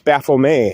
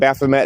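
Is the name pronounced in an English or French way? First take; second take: French; English. First: The name is pronounced the French way. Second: The name is pronounced the English way. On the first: The speaker calls it right. "it's French" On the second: The speaker calls it wrong. "it's not Baphomet"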